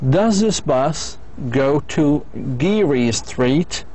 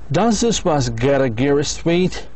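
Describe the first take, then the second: First: "Go to" is said as two full words. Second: "Go to" is blended into a short "gotta". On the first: "هذه with the long form" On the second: "Go to حتصبح gotta"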